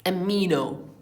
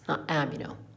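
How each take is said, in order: First: The stress is on the 'mi' syllable. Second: The stress is not on the 'mi' syllable. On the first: The speaker calls it right. "stress is on the um, M" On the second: The speaker calls it wrong.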